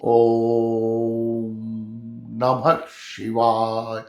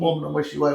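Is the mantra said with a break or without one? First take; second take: with break; without break. First: It is said with a break, voice raised. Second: It is said smoothly, without a break. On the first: The speaker calls it right. "असं break मारून त्याला व्हॉइसला वर घ्यावा लागतो" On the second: The speaker calls it wrong. "ते तसं नाही"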